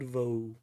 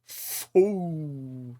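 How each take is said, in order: First: The syllable begins with a v sound. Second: The syllable begins with an f sound. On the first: The speaker calls it wrong. "not not vo" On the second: The speaker calls it right. "It's fo, not not vo. It's a v, but we do not pronunciate the v like you do"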